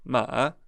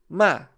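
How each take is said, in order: First: It is said with the third tone. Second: It is said with a short, sharply falling tone. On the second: "O quarto é o tom descendente. E ele é curto e grosso"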